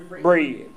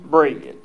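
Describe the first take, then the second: First: The word is said in a country accent. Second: The word is said in a suburban accent. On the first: "If y'all want me to say it country" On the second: "If you want me to say it suburban"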